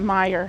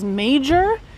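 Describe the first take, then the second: First: It does not sound like the word 'major'. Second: It sounds like the English word 'major'. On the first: The speaker calls it right. "you pronounce it Meijer, apparently" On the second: The speaker calls it wrong. "I read it for the first time, I thought it was major"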